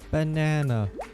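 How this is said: The word is said in an American accent.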